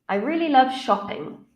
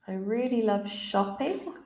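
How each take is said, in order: First: The voice falls at the end. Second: The voice rises at the end. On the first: The speaker calls it right. "it should be falling because it's a statement" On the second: The speaker calls it wrong. "the candidate has used a rising intonation on a statement"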